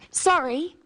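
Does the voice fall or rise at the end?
fall. The voice falls at the end, apologising.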